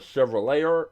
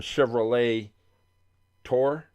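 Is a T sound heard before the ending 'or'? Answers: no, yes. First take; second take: no; yes. First: No T sound is heard before the ending. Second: A T sound is heard before the ending. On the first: "you don't pronounce the T at the end of Chevrolet" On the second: "it's just spelled Chevrolet with an O R on the end"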